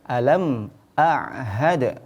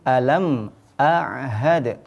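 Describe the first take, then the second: The two takes are said the same way.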